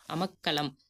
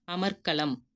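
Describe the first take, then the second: First: அமக்களம் with the r left out; wrong form. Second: அமர்க்களம் with r sounded before kk; correct form. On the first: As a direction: drop the r: அமக்களம், "amakkalam". (ரகர ஒலி இல்லாமல் அமக்களம்) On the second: (ரகர ஒலியுடன் அமர்க்களம்) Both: Shown as a demonstration. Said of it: "புள்ளி வச்ச எழுத்து".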